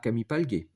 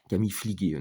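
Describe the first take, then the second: First: The middle syllable sounds like 'pal'. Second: The middle syllable sounds like 'fli'. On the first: The speaker calls it wrong. "Moi, je prononce mal" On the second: The speaker calls it right. "normalement, faut dire"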